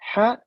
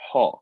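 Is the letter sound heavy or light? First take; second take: light; heavy. First: The letter is said light, without a full mouth. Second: The letter is said heavy, with a full mouth. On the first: The speaker calls it right. "when I say ha, it's not full mouth" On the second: The speaker calls it wrong. "not ha"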